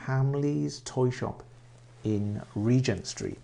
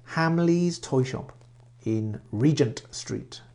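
No difference in how they are said.

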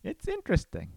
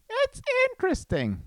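First: Said in the usual way. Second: High sing-song "interesting"; silly high voice. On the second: Acted. Musing to viewers in a silly high voice. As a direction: toss it up high and playful.

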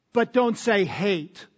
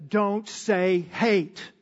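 First: Said in the usual way. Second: Slow, lightly voiced motherly warning; a hint of a scolding mother, slowed right down; quoting mom. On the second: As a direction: mimic mom drawing the words out. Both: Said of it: "Mom always said".

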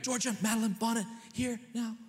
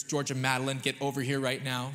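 First: High, sharp scolding call of the full name; mad full-name call. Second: Stern full-name call. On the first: Parent calling daughter over in anger, high sharp scold. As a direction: bark the child's full name like an angry parent. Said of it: "it's to get mad at them". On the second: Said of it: "The only reason we give full names ... to get mad at them". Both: Retold or imitated.

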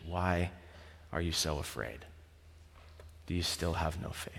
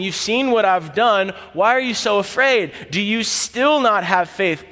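First: Near-silent, soft and sorrowful; quiet, grave rebuke from Jesus; hushed question. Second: Kind teacher asking, not shaming; Jesus gently questioning his disciples; gentle question. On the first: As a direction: let the question sink in almost under your breath. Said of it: "He's not trying to yell over the wind". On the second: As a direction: speak it like a patient friend beside you. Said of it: "He's sitting and speaking with you on the boat". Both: Retold or imitated.

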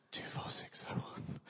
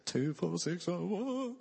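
First: A secret number, whispered; whispered prison number; hushed whisper. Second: Slow, higher, sung as in the musical; musical-theatre sung line; sung like Les Mis. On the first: Reciting Valjean's prison number. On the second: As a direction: sing the number like the show's chorus. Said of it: "The true Les Mis fans". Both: Pretend.

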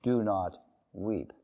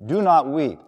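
First: "Do not weep" said softly and slowly, tender falling end; gentle command. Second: "Do not weep" said firm and louder, "Do" stressed with a falling end; firm command. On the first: Preacher voices Jesus softly comforting the grieving mother. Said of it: "the reason Jesus said". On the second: Preacher voices Jesus firmly telling the widow to stop weeping. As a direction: hit "Do" hard like an order. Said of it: "Another way to put it is this way". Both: Shown as a demonstration.

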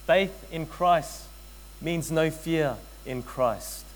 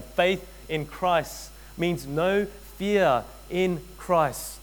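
First: Each word spaced out; slow sermon emphasis; slow, deliberate. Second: Stretched out, leaning on "fear"; drawn-out repeat for the congregation; slow, deliberate repeat. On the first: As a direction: lay it down slowly like a verdict. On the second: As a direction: say it again even slower. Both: Shown as a demonstration. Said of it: "Let me say that again".

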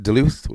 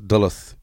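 First: Duluth said "duh-LOOTH"; second-syllable stress. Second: Duluth said "DULL-uth"; first-syllable stress. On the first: Host checking a city name, Duluth as duh-LOOTH. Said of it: "Is it Duluth or". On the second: Host offering the other option, Duluth as DULL-uth. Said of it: "Is it Duluth or D". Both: Shown as a demonstration.

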